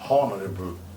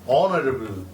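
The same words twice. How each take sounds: First: It starts with a clear H sound. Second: It starts with a vowel, without an H sound. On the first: The speaker calls it wrong. "it is not honorable" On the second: The speaker calls it right. "A sound is dropped"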